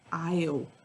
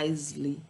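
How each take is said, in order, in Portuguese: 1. A palavra não tem som de s e tem uma sílaba. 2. A palavra tem som de s e duas sílabas. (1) "É aisle" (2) "não é Isley"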